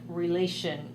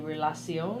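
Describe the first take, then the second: First: It is pronounced with English sounds. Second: It is pronounced with French sounds. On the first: "Like relation" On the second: "you would say relation"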